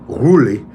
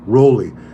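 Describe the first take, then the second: First: The first syllable sounds like 'rule'. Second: The first syllable sounds like 'roll'. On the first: The speaker calls it right. "It's Ruli" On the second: The speaker calls it wrong. "You guys love to correct me"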